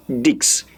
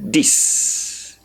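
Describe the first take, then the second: First: "Dix" ending in ks; sounded X. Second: "dis" ending in a long hissed s; correct dix. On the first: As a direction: say "Dix" wrongly, with a k before the s. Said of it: "you don't say Dix". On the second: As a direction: say "dis" as dees with no k sound. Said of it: "You say". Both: Shown as a demonstration.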